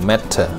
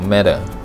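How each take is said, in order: First: It is said with a British English accent. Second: It is said with an American English accent. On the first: "ถ้าเป็นสำเนียงภาษาอังกฤษจะออก" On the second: "ถ้าเป็นอเมริกันจะออก"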